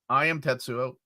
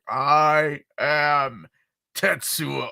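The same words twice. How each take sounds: First: It is delivered in a flat, plain way. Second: It is delivered in a very dramatic way.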